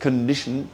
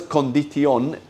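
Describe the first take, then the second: First: Condition as KUN-di-shn, vowels swallowed; the right reduced version; reduced English schwa. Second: Condición with every vowel clear, Spanish style; the wrong full-vowel version. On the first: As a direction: say condition the English way with a weak first syllable. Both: Shown as a demonstration. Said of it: "porque no es condición".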